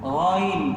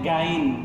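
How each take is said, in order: First: It starts with a gargled sound at the back. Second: It starts with a plain, hard g sound.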